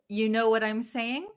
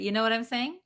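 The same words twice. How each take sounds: First: The word 'you' keeps its full vowel. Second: The word 'you' is reduced to 'ya'.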